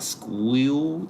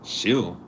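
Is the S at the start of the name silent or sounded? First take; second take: sounded; silent. First: The name starts with a clear sk sound. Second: The name starts without any s sound. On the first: The speaker calls it wrong. "I pronounced it like that because the S C H, S C H, I'm thinking of school" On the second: The speaker calls it right. "sound like chill. Sound like the S is silence"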